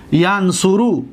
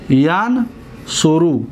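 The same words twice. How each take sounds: First: Said in the usual way. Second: ینصرو said slowly as yan-su-ru; slow model word. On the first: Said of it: "first plain mention". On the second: Shown as a demonstration. Teacher slowly modeling the verb for students. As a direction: stretch ینصرو out for the class. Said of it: "teacher repeats the word slowly".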